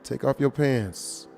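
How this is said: It is said in a deep, low voice. The request is much more likely to be followed. The speaker calls it right.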